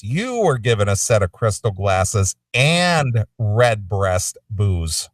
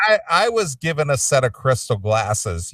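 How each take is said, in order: First: "You" and "and" punched, pitch swooping up; contrastive stress on YOU. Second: I leaned on, rest even; contrastive stress on I. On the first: Host points out co-host got more, stressing "You" and "and". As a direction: hit "You", then lean hard on "and". Contrasts co-host's larger gift. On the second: Host compares his gift with co-host's, stressing "I". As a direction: put the weight on "I". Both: Real, not acted.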